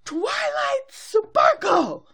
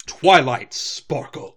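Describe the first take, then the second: First: High, drawn-out booming shout; Princess Celestia. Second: Stern, loud, slow scolding at normal pitch; Princess Celestia. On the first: Princess in the sky summons her student, high long shout. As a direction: call it out huge and slow from above. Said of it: "Princess Celestia in the sky going". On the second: Princess reprimanding her student, loud stern mom voice. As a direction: say the name like an angry mom. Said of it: "It's more stern". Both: Retold or imitated.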